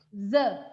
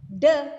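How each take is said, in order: First: The word starts with a breathy th sound. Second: The word starts with a stopped d sound. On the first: The speaker calls it right. "tapi the. Ada udara yang mengalir" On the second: The speaker calls it wrong. "bukan bukan the"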